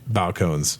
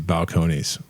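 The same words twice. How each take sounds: First: It is said with a spelled-out English-style pronunciation. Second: It is said with a Spanish-style pronunciation. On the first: This is a local spelling-based reading. "Kentucky pronunciation of Balcones is officially, I'm dubbing it tonight" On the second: This is how the brand is named. "it's very obviously Balcones"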